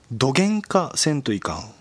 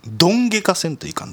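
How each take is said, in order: First: "どげんかせんといかん" with ん after げ; Kagoshima-leaning form. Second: "どんげかせんといかん" with ん straight after ど; Miyazaki form. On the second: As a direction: say "どんげかせんといかん" as don-ge-ka, the Miyazaki way, opening higher. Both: Shown as a demonstration. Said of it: "じゃないもんね、こっちはね".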